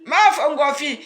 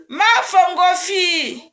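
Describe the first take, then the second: First: Said in the usual way. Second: Slow, loud, half-crying call; tearful excited cry. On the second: Real, not acted. Greeting her dear one on the live, tearful loud call. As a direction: cry out the name with joy and tears.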